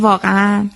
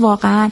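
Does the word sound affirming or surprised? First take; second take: affirming; surprised. First: It is said in a confirming, agreeing tone. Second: It is said in a surprised, astonished tone. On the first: The listener's statement is being confirmed. "دارم یک جای یک جمله شما رو تصدیق میکنم" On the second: The speaker is expressing astonishment. "جای دیگه دارم از تعجب دارم صحبت میکنم"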